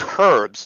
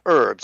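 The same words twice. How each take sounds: First: The h at the start is pronounced. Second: The h at the start is silent. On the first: The speaker calls it right. "It's herbs because there's a fucking H in it" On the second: The speaker calls it wrong. "not herbs"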